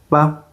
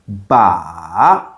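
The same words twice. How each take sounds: First: It is said softly and lightly, without contour. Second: The pitch goes down, then back up. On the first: "normally soft and light" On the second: "going down and up"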